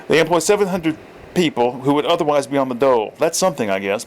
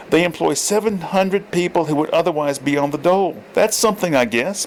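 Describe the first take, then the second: First: Corrected character voice. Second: Put-on lines read in the old man's voice by mistake; wrong character voice. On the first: Reader correcting Borden's line after using the wrong voice, grudging. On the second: Reader voicing Borden's line in the wrong voice, lightly. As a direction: slip into Thorpe's voice by accident. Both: Shown as a demonstration. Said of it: "I read it in the wrong voice".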